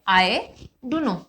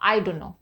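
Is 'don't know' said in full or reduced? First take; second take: full; reduced. First: Each word of 'don't know' is said in full. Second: 'Don't know' is run together as 'dunno'. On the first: "आज के बाद आप डोंट नो मत बोलिएगा" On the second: "क्या बोलोगे? डू नो"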